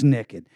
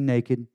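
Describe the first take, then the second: First: The word is said with a Texan pronunciation. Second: The word is said in a standard way. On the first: "I'm from Texas. It's naked" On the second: "I never say naked"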